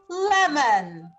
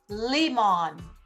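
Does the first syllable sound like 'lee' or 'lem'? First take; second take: lem; lee. First: The first vowel is a short 'eh' sound. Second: The first vowel is a long 'ee' sound. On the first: The speaker calls it right. "Sound eh, read it lem" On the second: The speaker calls it wrong. "Sound E, read it lee"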